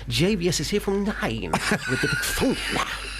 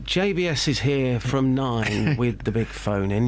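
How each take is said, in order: First: It is delivered lively, with extra twang and energy. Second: It is read flatly, straight off the page. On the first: The speaker calls it right. "you can say, ... lift it off the paper" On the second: The speaker calls it wrong. "Instead of saying"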